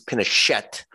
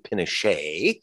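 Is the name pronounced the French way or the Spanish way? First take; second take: Spanish; French. First: The name is said with a Spanish pronunciation. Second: The name is said with a French pronunciation. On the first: "he's Pinochet" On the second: "some people Frenchify the name to Pinochet"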